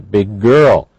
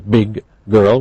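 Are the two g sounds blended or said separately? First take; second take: blended; separately. First: The two g sounds blend into one sound. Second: The two g sounds are said separately. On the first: The speaker calls it right. "we say big girl ... So these are blended" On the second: The speaker calls it wrong. "We don't say"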